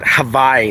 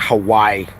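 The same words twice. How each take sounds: First: The word has a native Hawaiian pronunciation. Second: The word has the usual American pronunciation. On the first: The speaker calls it right. "you pronounce it Hawaii" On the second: The speaker calls it wrong. "not Hawaii. That's the American way"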